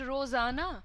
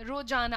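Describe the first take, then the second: First: The middle consonant is a z sound. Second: The middle consonant is a j sound. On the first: The speaker calls it right. "You have to call it रोजाना" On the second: The speaker calls it wrong. "इसको आप लोग ऐसे बोलते हैं रोजाना"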